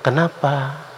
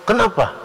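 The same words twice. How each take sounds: First: It is said softly and gently. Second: It is said harshly and aggressively.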